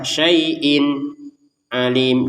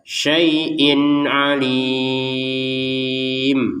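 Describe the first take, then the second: First: There is a pause between the two words. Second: The two words run together without a pause. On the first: The speaker calls it wrong. "Jangan ada jeda, ... juga salah" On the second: The speaker calls it right. "Jadi langsung saja"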